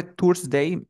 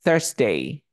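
First: "Thursday" as turs-dei, with T and U; wrong Thursday. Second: "Thursday" as thers-dei, with TH and E; vowel like E. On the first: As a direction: say "Thursday" with a hard T and an OO vowel. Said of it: "En lugar de Thursday". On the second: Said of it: "es como una E". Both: Shown as a demonstration.

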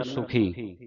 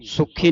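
First: ਸੁਖੀ said softly, single light ਖ; soft pronunciation. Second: ਸੁਖੀ with a hard, doubled ਖ; wrong hard pronunciation. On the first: Teacher models it for congregation, ਸੁਖੀ soft with single ਖ. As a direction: ease through ਸੁਖੀ without doubling the ਖ. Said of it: "ਇਸ ਨੂੰ ਪੋਲਾ ਉਚਾਰਨ ਕਰਨਾ". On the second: Teacher rules it out, ਸੁਖੀ with doubled hard ਖ. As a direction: hold a stop before the ਖ in ਸੁਖੀ. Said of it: "ਸੁਖੀ ਨਹੀਂ ਕਹਿਣਾ ਇਸ ਨੂੰ". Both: Shown as a demonstration.

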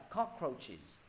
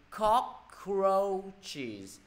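First: Said in the usual way. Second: COCK-ROACH-ES in three drawn-out syllables. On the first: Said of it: "Ba âm tiết". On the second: Shown as a demonstration. Teacher adding the plural ending, slow three-syllable demonstration. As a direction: stretch "Cockroaches" so every syllable is countable. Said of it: "Mấy âm tiết mọi người?".

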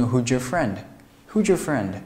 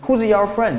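First: "Who's your" blended with a j-like sound; teacher's linked reading. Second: High, loud "Who's your", words apart; learner's unlinked reading. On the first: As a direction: run "Who's your" together as "who-jur". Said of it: "我会读成". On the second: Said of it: "你会读成". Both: Shown as a demonstration.

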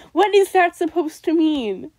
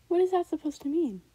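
First: Louder disbelieving question, hit the word is; loud baffled outburst. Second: Said in the usual way. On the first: Real, not acted. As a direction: shout it out in disbelief. Baffled by own lyric.

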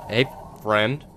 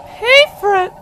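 First: Said in the usual way. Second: Very high, loud falsetto call; squeaky greeting. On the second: Pretend. Player calls to a scary creature, squeaky greeting. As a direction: squeal a nervous hello.

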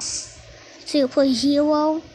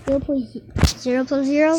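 First: Silly slow voice. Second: Silly fast voice. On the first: Teacher teasing the student with a slow quiz question. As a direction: drag "Zero plus zero?" out slowly. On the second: Teacher teasing the student with a fast quiz question. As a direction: rattle "Zero point zero zero plus zero?" off very fast. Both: Pretend. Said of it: "Stop talking like that".

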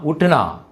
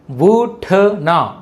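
First: Said in the usual way. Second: Very slow, drawn-out ఉట్నా; syllable by syllable. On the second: Shown as a demonstration. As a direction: sound out ఉట్నా for learners. Teacher sounds out new word.

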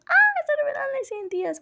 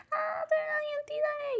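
First: High, loud squeal of pure joy; high-pitched, loud excited squeal; fangirl squealing. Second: High squeal held back to normal volume; imitating a squeal. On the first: Retold or imitated. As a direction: shriek it out like a fan losing it at the big reveal. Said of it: "yo chillando como loca". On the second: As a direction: replay the fangirl shriek high but kept down. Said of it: "si me escuchaba chillando diciendo".

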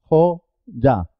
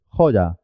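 First: "Joya" as two separate syllables, Jo, ya; split into syllables. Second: Said in the usual way. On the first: Shown as a demonstration. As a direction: pause inside "Joya", with the y a consonant starting ya. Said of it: "porque empieza sílaba". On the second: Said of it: "así es".

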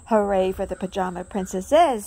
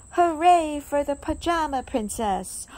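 First: Loud cheer with a falling end. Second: Loud, happy cheer. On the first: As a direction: cheer everyone on. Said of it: "said Daisy". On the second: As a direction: cheer for the princess. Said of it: "cheering the princess". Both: A narrator's reading.

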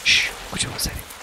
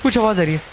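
First: Shush, then quick soft whispering; quick, secretive whisper after a shush; hushed whisper. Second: Said in the usual way. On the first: Real, not acted. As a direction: whisper urgently so as not to be heard.

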